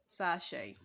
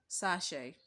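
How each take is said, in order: No difference in how they are said.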